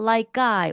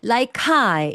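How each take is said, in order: First: The k links into I as a tense sound. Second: The k links into I with a breathy puff. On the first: The speaker calls it right. "된소리로 발음을 해서 연결해 줍니다" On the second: The speaker calls it wrong. "카이가 아니에요"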